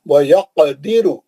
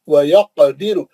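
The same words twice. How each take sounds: No difference in how they are said.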